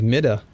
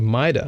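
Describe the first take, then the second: First: The first syllable sounds like 'me'. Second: The first syllable sounds like 'my'. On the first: The speaker calls it wrong. "I thought it was Mida" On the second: The speaker calls it right. "But Maida, okay, cool"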